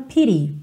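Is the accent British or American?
American. It has an American accent with a soft T.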